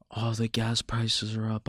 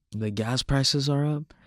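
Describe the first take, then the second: First: Mild, resigned grumble; half-hearted complaint in someone else's words; mock complaining. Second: "The gas prices are up?" slower, climbing high as a question; questioning echo. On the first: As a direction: imitate someone moaning, lightly. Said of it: "bitching, moaning, and complaining like". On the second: Acted. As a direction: throw "The gas prices are up?" back as a slow, higher question. Questions the complaint back.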